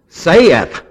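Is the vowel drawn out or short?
drawn out. Said with a drawn-out Southern vowel.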